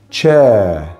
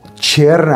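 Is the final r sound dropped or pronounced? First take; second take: dropped; pronounced. First: The word ends on a vowel without r. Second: The word ends with an audible r sound. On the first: The speaker calls it right. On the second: The speaker calls it wrong.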